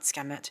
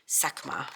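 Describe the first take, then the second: First: The name begins with a 'sk' cluster. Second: The name begins with a 'sek' syllable. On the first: The speaker calls it wrong. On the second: The speaker calls it right.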